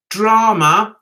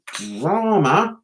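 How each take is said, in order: First: "drama" repeated firmly, rising at the end; emphatic DRAMA. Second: "drama" stretched slowly on a low pitch; drawn-out DRAMA. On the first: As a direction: hit "drama" harder, standing alone. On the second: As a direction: draw out the first syllable of "drama", low and slow. Scornful repeat of the word drama. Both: Real, not acted.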